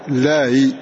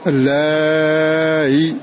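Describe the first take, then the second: First: The vowel before the hamza is kept short. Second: The vowel before the hamza is drawn out long. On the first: "والتسهيل يكون مع المد والقصر" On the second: "والتسهيل يكون مع المد والقصر"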